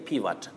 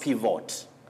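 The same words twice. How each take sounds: First: The second vowel is a weak uh sound. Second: The second vowel is a full O sound. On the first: The speaker calls it right. "this O takes the weak sound and the weak mid-central sound uh" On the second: The speaker calls it wrong. "Not pivot. We are used to pivot"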